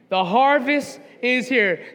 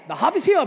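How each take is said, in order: First: It is said in plain standard English. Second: It is said in a Pidgin English style.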